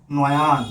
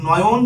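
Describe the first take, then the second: First: নয়ান with a long open a in the second syllable; stretched vowel. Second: Said in the usual way. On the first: Shown as a demonstration. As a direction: draw out the a in নয়ান. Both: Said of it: "আমরা যদি বলি নয়ন থেকে বলি".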